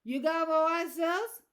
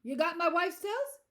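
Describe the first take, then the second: First: Slow, loud, slurred Southern question; slurred Southern accent. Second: Loud, high, alert question; bright, alert. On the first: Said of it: "his words slurred like he'd had trouble". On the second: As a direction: ask it wide awake, at a normal pace. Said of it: "suddenly bright alert". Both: A narrator's reading.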